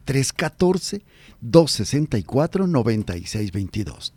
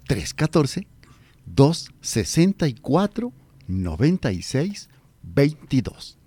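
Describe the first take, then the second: First: The number is read fast. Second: The number is read slowly.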